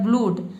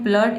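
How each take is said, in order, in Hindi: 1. स्वर 'oo' की लंबी ध्वनि है। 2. स्वर 'uh' की छोटी ध्वनि है। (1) "अगर ऊ पढ़ते तो ये हो जाता है ब्लूड" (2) "लेकिन इसको हम पढ़ते हैं ब्लड"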